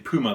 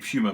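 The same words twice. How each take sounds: First: It is pronounced a non-British way. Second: It is pronounced the British way. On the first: "If you say Puma, that's fine" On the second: "that's what we say where I'm from in the U K"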